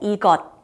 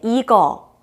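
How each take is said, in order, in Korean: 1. 이 단어는 받침 ㄷ 소리로 끝나요. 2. 이 단어는 모음으로 끝나요. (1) "같은 말이에요" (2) "받침 시옷이 생략됐죠"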